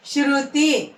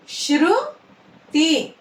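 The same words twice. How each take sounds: First: Said in the usual way. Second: "Shruti" split, high rising శృ, then తి; "శృతి" in two separate syllables. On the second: Shown as a demonstration. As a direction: slowly sound out "Shruti" with a gap. Teacher sounds out syllables.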